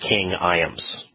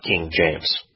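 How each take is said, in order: First: The name begins with a soft Y sound. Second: The name begins with a hard J sound. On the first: This is the original pronunciation of the name. The speaker calls it right. "It was King Iams" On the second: This is the later altered pronunciation. The speaker calls it wrong. "not King James"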